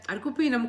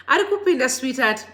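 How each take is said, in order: First: Said in the usual way. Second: Excited call. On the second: Real, not acted. Hyping a viewer joining the live.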